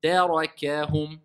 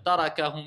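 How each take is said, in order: First: Slow Tarakahum, light "tè", heavy "ra", light "kè"; measured Tarakahum with alternating vowel weight; thin, heavy, thin. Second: Tarakahum with every A the same; undifferentiated vowels in tarakahum; careless recitation. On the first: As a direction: recite Tarakahum slowly, darkening only the ra. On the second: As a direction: say tarakahum evenly, without thinning ta or ka. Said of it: "C'est pas la personne va dire". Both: Shown as a demonstration.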